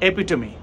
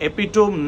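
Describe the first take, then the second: First: It has four syllables, ending in 'tuh-mee'. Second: It has three syllables, ending in 'tome'. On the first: The speaker calls it right. "खरं pronunciation आहे एपिटमी" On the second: The speaker calls it wrong. "एपिटोम नाही"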